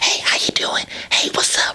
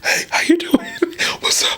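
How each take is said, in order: First: The voice sounds bright, with a raised larynx. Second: The voice sounds warm, with a lowered larynx.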